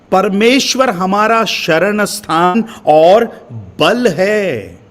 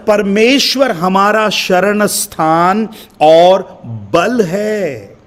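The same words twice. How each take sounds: First: Said in the usual way. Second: Slow, drawn-out reading of परमेश्वर हमारा शरण स्थान; scripture reading. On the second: Acted. Preacher reading the psalm's first verse aloud, slow and drawn out. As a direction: read the verse slowly, savouring it. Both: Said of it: "पहली आयत को मैं पढ़ रहा हूं".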